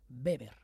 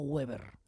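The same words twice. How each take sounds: First: The name is pronounced the German way. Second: The name is pronounced the English way. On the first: The speaker calls it right. "En alemán es Weber" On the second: The speaker calls it wrong. "no Weber. Eso es en inglés"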